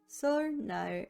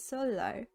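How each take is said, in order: First: The middle consonant is pronounced as an n. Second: The middle consonant is pronounced as an l.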